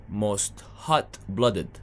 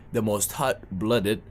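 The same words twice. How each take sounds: First: Hot-blooded drawn out slowly; stress on hot-blooded. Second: The most hot-blooded said slowly, firmly; stress on hot-blooded. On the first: Correcting himself, slow stress on hot-blooded. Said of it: "should be warm-blooded". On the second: Insisting to the crowd, slow firm hot-blooded. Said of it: "No, it's hot". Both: Shown as a demonstration.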